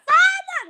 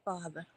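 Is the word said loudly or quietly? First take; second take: loudly; quietly. First: It is said loudly, like a yell. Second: It is said quietly, without yelling.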